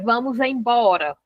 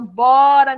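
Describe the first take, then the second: First: The full phrase is said with all syllables. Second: Only two syllables of the phrase are said. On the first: The complete form nobody uses anymore. "Hoje você não fala assim" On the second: An even more shortened form. "Aí lá no final"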